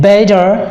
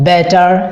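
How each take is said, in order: First: The middle T sounds like a soft D. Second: The middle T sounds like a clear T. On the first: The speaker calls it right. "এখানে টিটা ডি এর মতো উচ্চারণ হয়েছে" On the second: The speaker calls it wrong. "আমরা যে normally pronunciation করি"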